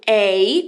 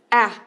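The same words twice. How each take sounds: First: The vowel is long, like the letter name. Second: The vowel is short and clipped. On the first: "som de A, como em acorn" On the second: "como em apple... é um som curto"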